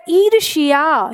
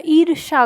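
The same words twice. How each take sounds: First: ईर्ष्या said slowly with a clear या at the end; full Sanskrit form. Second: ईर्ष्या said as irsha, the या dropped; simplified Hindi form. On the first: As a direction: say ईर्ष्या slowly and sound out the final या. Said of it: "या का उच्चारण उसमें आता है". (ईर्ष्या धीरे से, अंत में या साफ़ बोलें) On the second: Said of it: "या का उच्चारण गायब कर दिया". (ईर्ष्या को या के बिना ईर्षा बोलें) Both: Shown as a demonstration.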